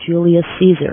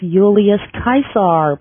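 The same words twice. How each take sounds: First: The name is said the familiar English way. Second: The name is said in a less familiar way. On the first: The speaker calls it wrong. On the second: The speaker calls it right.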